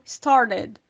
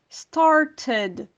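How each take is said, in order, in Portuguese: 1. O T do meio é um tap rápido, parecido com r. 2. O T do meio é um som de t claro. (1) "um americano falaria mais pro started" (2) "um britânico falaria started"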